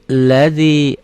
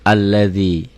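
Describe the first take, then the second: First: The word starts directly with the l sound. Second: The word starts with an a vowel sound. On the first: "A-nya enggak dibaca kan enggak ada tandanya" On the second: "Tapi kalau diputus, ini jadi A"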